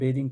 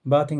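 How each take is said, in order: First: First vowel is an 'ay' sound. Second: First vowel is a broad 'aa' sound. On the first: The speaker calls it right. "अब हम बेदिंग पढ़ेंगे" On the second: The speaker calls it wrong. "अब हम बाथिंग नहीं पढ़ेंगे"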